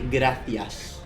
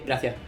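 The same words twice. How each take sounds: First: It is said in a Madrid Spanish accent. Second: It is said in a southern Spanish accent. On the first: The speaker is from Madrid. "if you're from Madrid, you say" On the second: The speaker is from the south of Spain. "If you're from the south, you say"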